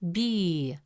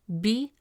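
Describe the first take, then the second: First: The vowel is long. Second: The vowel is short. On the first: "the presence of ya makes it B" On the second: "Instead of pronouncing it as B"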